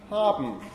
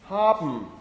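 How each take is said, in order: The two takes are said the same way.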